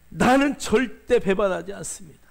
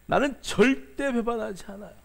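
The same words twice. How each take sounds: First: Loud, proud vow with the stress on 나는; Peter's loud boast. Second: A boastful vow leaning hard on 절대; Peter's repeated boast. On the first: Peter swearing loudly to Jesus, puffed-up loud vow. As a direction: bellow 나는 like a boastful disciple swearing loyalty. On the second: Peter repeating his promise to Jesus, a boast hammering 절대. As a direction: insist on 절대 as if nobody could doubt it. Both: Retold or imitated. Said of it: "큰 소리 치고".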